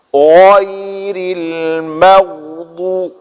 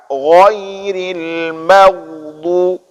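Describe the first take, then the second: The two takes are said the same way.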